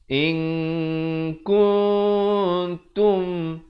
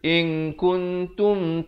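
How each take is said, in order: First: The n is hidden, nasalized and held longer. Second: The n is short and clearly pronounced. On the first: The speaker calls it right. "ikhfa hakiki dibaca samar dua harakat" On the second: The speaker calls it wrong. "Jangan baca in kuntum ta'lamun. Tak betul"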